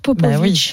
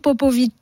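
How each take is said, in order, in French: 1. Le nom se dit avec sa prononciation native. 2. Le nom se lit comme il s'écrit. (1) "Mais qu'on prononce Popovic" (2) "qui s'écrit Popovic"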